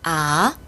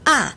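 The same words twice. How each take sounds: First: The pitch rises from middle to high. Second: The pitch falls sharply from high to low. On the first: "이 성" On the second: "사 성"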